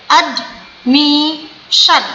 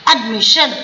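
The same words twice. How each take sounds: First: admission very slow, ad... mi... shan; slow syllables. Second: Said in the usual way. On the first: Shown as a demonstration. Teacher demonstrating three syllables, admission split slowly. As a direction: cut admission into three beats with gaps. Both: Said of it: "slow slow करके बोलिए".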